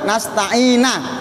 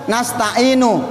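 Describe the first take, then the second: First: The word ends with an 'a' vowel. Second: The word ends with an 'u' vowel. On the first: The speaker calls it wrong. "dia baca nasta'ina" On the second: The speaker calls it right. "Kalau di Quran nasta'inu"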